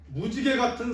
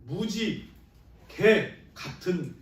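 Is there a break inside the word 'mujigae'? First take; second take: no; yes. First: Mujigae is said as one unbroken word. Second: A break falls between muji and gae. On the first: It means like a rainbow. The speaker calls it right. "이렇게 읽어야 되는데" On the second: It means very much like a dog. The speaker calls it wrong. "잘못 읽게 되면"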